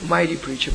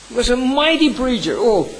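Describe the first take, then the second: First: Said in the usual way. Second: High, ringing praise on mighty; fervent praise. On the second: Real, not acted. Pastor extolling Spurgeon to his congregation, fervent and high. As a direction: lift "mighty" high and loud in admiration.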